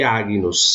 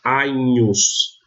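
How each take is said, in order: First: "Agnus" as ag-nus, hard g; "Agnus" with an audible g before the n; reconstructed pronunciation. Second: "Agnus" as a-nhus, gn like Spanish ñ; Roman pronunciation. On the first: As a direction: keep g and n separate in "Agnus". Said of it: "se leria se fosse a pronúncia reconstituída". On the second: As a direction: say "Agnus" with no hard g, a palatal nh. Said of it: "na pronúncia romana eu leio". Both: Shown as a demonstration.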